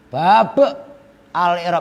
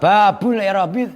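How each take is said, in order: First: The word bab ends on a bare consonant. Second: The word bab ends with a u vowel. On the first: The speaker calls it wrong. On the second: The speaker calls it right.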